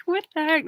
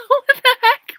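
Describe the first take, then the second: First: Said in the usual way. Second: High, loud laughing squeal through the words; laughing disbelief. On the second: Real, not acted. Laughing at her own courtroom sketch, squealing. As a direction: crack up mid-question.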